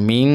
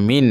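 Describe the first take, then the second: First: Blur the n into a humming ng on মিং; wrong nasalised ending. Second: মিন ending on a clean, clear n. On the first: Teacher shows what not to say, মিং with a humming ng. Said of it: "এখানে মিং বলা যাবে না". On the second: Teacher corrects the learner's reading, crisp clear n on মিন. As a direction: say মিন distinctly, no ng hum. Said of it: "স্পষ্ট". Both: Shown as a demonstration.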